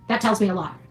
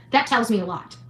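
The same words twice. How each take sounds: The two takes are said the same way.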